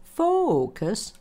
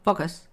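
First: The oh vowel is long and relaxed. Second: The oh vowel is short and tense. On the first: The speaker calls it right. "it's focus" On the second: The speaker calls it wrong. "That long oh isn't motivate, focus"

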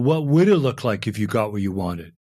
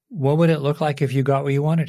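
First: The question sounds snippy and impatient. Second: The question sounds sincere and open. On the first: The speaker is annoyed and dismissive. The speaker calls it wrong. "not with tone" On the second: The speaker genuinely wants to know the answer. The speaker calls it right. "just sincere"

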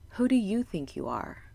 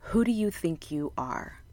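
First: It is said in a warm, encouraging tone. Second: It is said in a harsh, critical tone.

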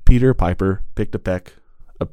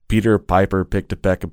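First: The P sounds pop with bursts of wind. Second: The P sounds are soft, without bursts of wind. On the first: The speaker calls it wrong. "and then remove it" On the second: The speaker calls it right. "with and without that filter"

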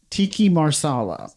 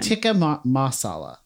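First: The first word ends in an 'ee' sound. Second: The first word ends in an 'uh' sound. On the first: The speaker calls it wrong. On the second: The speaker calls it right.

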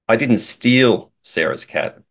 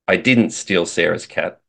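First: The stress is on the word 'steal'. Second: The stress is on the word 'didn't'. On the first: The speaker maybe borrowed it or was given it. "implies that maybe I borrowed it or she gave it to me" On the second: The speaker denies doing it at all. "says that I didn't do it"

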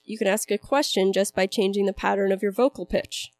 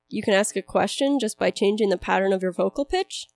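First: The voice falls at the end like a statement. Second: The voice rises at the end like a question. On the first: It is a statement. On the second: It is a question.

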